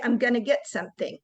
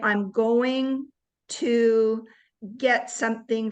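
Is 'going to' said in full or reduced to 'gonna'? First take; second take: gonna; full. First: 'Going to' is run together quickly as 'gonna'. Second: Each word of 'going to' is said separately. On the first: "We say, ... the word gonna" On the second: "instead of saying"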